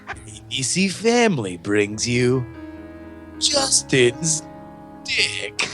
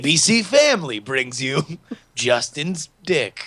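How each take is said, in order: First: It is said slower and in a lower voice. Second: It is said at a normal pace and pitch.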